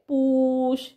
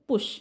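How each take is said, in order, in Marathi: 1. स्वर दीर्घ उच्चारला जातो. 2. स्वर ह्रस्व उच्चारला जातो. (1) "पुश असं नाहीये" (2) "तर छोटा आहे"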